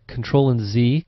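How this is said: Z is said the American way, 'zee'.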